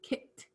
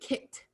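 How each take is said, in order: No difference in how they are said.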